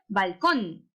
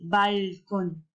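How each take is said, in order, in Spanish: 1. El acento está en la segunda sílaba. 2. El acento está en la primera sílaba. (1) "¿Dónde lleva la tilde? Muy bien, en la O" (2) "¿Sonará bien? No, ¿verdad?"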